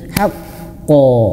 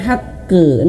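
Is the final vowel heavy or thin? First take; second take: heavy; thin. First: The final bounce is heavy, ending in 'o'. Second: The final bounce is thin, ending in 'e'. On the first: The speaker calls it right. "tebalkanlah ketika dia memantul" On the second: The speaker calls it wrong. "bukan haqqe"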